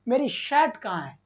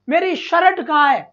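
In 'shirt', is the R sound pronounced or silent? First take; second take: silent; pronounced. First: The R sound in 'shirt' is left silent. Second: The R sound in 'shirt' is clearly pronounced. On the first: The speaker calls it right. "ये र को नहीं बोला जाता रे बाबा" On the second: The speaker calls it wrong. "ये र को बोलने की जरूरत, शर्ट थोड़ी बोलते हैं"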